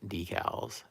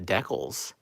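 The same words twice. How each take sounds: First: It is said the usual American way. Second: It is said the other, Canadian way. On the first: "that to me is the only way I've ever heard that word pronounced" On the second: "I've been hearing some people say uh"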